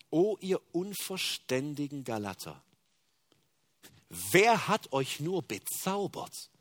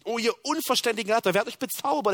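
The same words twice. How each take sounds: First: Slow, measured scripture reading; slow solemn reading. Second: Loud, fast and much higher scolding; sharp rebuke. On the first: Preacher first reads Paul's rebuke slowly and solemnly. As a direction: lay each word down slowly and gravely. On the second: Preacher voicing Paul sharply rebuking the Galatians, loud and fast. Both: Shown as a demonstration. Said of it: "er verurteilt es so scharf".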